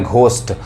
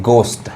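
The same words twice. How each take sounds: First: घोस्ट with a breath-released "gh" at the start; common mispronunciation. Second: घोस्ट opening on plain g, silent h; correct hard G. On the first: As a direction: say घोस्ट wrongly as "G-HOST", aspirated g. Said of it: "बहुत लोग इसको गलत पढ़ते हैं". (घोस्ट में "घ" वाला गलत उच्चारण) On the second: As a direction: say घोस्ट as "gost", no aspiration. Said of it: "क्या होता है?". (घोस्ट को "गोस्ट" पढ़ें, ह silent) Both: Shown as a demonstration.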